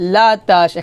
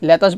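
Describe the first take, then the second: First: The first vowel is an open 'a' sound. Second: The first vowel is an 'e' sound. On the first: The speaker calls it right. "বলতে হবে লা লাম জবর লা তাশিন জবর তাশ লাতাশ" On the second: The speaker calls it wrong. "লেতাশ বলা যাবে না"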